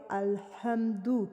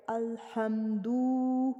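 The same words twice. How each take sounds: First: الحمدو with the final u kept short; الحمدو, just a brief u at the end; short dammah. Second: الحمدو with the final u stretched very long; overlong vowel. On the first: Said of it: "بس اتنا ہی کھینچنا ہے". (درست الحمدو، پیش مختصر) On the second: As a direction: drag out the u of الحمدو as the mistake. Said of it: "واو کا اضافہ کر رہے ہیں". (غلط الحمدو، پیش کو لمبا کھینچ کر) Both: Shown as a demonstration.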